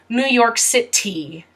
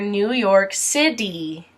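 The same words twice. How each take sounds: First: The t in city is a clear t. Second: The t in city sounds like a d. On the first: "you will most likely not hear" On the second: "most Americans pronounce their T as a D"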